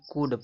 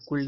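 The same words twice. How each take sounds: First: कुड with short u, silent l, ending on d; correct reading. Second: कुल with the l sounded at the end; wrong reading. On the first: Teacher giving students could, कुड without any l. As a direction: model कुड, short vowel and final d. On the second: Teacher warning students off a misreading, कुल ending in l. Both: Shown as a demonstration. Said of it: "कुल नहीं कुड पढ़ेंगे".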